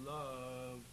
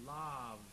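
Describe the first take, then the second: First: "love" with the vowel placed way back. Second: "love" opened towards "lahv", hillbilly style; hillbilly vowel. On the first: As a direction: say "love" far back in the throat. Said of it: "way back there". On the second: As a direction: say "love" with a forward, countrified ah. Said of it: "in a sort of hillbilly quality". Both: Shown as a demonstration.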